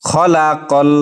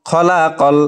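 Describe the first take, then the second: The two takes are said the same way.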